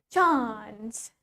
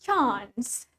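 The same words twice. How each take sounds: No difference in how they are said.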